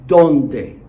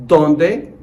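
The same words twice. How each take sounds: First: ¿Dónde? as a clear, falling model for repeating; ¿Dónde? said loud, falling at the end. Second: ¿Dónde? as a clear, rising question; ¿Dónde? said loud, rising at the end. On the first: Teacher to class repeating after him, loud falling model. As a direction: give ¿Dónde? crisply, dropping at the end. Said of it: "Please repeat after me". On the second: Teacher reviewing meanings, loud rising question. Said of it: "Take a look". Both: Shown as a demonstration.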